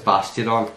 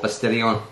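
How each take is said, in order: First: The name ends with a 'don' sound. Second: The name ends with a 'dee-on' sound. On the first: The speaker calls it right. "But it's Bastidon" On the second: The speaker calls it wrong. "I used to call it Bastidion"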